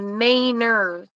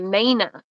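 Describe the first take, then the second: First: It is said in a general American accent. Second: It is said in a Maine accent, r dropped.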